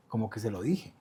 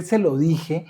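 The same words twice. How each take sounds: First: Se lo dije said softly, almost under his breath; quiet telling. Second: Se lo dije said louder and pointed, like "entérate"; defiant telling. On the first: Retold or imitated. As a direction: let se lo dije slip out quietly. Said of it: "Pero ese "se lo dije" era más un como". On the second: Shown as a demonstration. Explaining what he meant to his mother, defiant. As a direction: throw se lo dije out as a challenge. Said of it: "era más un como, "Entérate".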